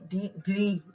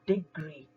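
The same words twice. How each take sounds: First: The stress is on the second syllable. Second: The stress is on the first syllable. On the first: The speaker calls it wrong. "ना कि" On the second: The speaker calls it right. "हम पहले वाले syllable को ज्यादा stress से बोलेंगे"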